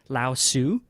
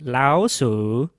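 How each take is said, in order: First: The name is said with an English pronunciation. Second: The name is said with a Chinese pronunciation.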